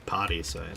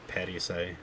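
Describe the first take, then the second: First: The first syllable is said like 'pa'. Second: The first syllable is said like 'pe'. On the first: This is how it sounds in the song. "it sounds like she's saying Parisai, like P A" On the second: This is how it would be read in Spanish. "because that's what it would be in Spanish"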